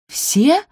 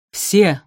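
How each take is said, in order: First: High, louder shocked question; aghast gasp. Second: Loud, firm command; firm confirmation. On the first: Sophie hears she must clean every shoe, gasping. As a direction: gasp it in disbelief. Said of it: "ахнула Софи". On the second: Stepmother confirms every shoe to Sophie, firmly. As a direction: confirm it with authority. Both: A narrator's reading.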